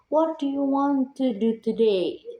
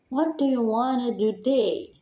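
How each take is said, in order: First: Each word is said clearly and separately. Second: The words blend together in relaxed reduced forms. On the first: It sounds like textbook speech. The speaker calls it wrong. "Sound is clean, but not natural" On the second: It sounds like casual native speech. The speaker calls it right. "Much more relaxed, more friendly, and more native"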